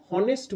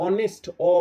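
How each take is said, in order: First: Honest with an H at the start; হনেস্ট begun with a sounded h. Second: অনেস্ট opening straight on the vowel অ; অনেস্ট with no h, then the bare first vowel; silent H. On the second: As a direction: drop the h in অনেস্ট, then isolate অ. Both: Shown as a demonstration. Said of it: "এইচ এর উচ্চারণ করছি না".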